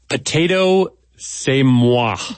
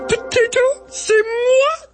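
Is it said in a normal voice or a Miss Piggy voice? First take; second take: normal; Miss Piggy. First: It is said in a normal reading voice. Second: It is said in a Miss Piggy voice.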